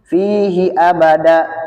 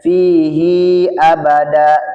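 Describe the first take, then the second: First: The 'hi' vowel is kept short. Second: The 'hi' vowel is held long. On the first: The speaker calls it right. "huruf hak dhamir tidak dibaca panjang jika salah satu dari huruf sebelum atau sesudahnya sukun" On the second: The speaker calls it wrong. "maka tidak dibaca fihi abada"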